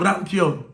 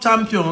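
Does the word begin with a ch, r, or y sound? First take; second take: r; ch. First: The word begins with an 'r' sound. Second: The word begins with a 'ch' sound.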